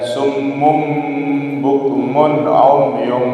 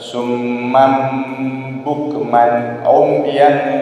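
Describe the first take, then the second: First: The words end in an 'um' or 'un' sound. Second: The words end in an 'am' or 'an' sound. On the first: This is the reading as written in the text. "Di Al-Quran tertulis dhammah" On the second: This is an alternative accepted reading. "dibaca fathah"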